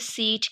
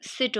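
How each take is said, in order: First: It has a long 'ee' vowel. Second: It has a short 'i' vowel. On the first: "Australian में देखें तो वो उसमें हम क्या कहेंगे, सीट कहेंगे" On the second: "British English के अकॉर्डिंग सिट होता है"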